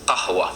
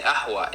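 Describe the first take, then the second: First: Said in the usual way. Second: Ahwa opening on the vowel, no q; dropped qaf. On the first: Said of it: "instead of". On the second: Retold or imitated. Explaining how a Lebanese speaker says coffee, ahwa without q. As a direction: leave off the q in ahwa. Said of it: "she's saying ahwa instead of".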